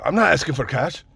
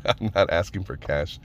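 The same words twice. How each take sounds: First: Clumsy mock Middle Eastern accent, slightly raised; bad Middle Eastern accent. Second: Said in the usual way. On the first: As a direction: quote him in a poor Middle Eastern accent. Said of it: "he had a little bit of a Middle Eastern accent".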